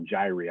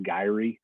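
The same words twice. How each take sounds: First: "gyri" said the usual classroom way, JY-rye; "gyri" as the standard plural, JY-rye; first pronunciation. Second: "gyri" in its other heard form, JEE-ree; "gyri" as some people say it; alternate pronunciation. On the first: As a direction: say "gyri" the way the lecturer teaches it. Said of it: "multiple ones we call gyri". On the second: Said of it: "I've also heard it pronounced gyri". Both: Shown as a demonstration.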